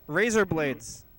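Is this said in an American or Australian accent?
American. It is said in an American accent.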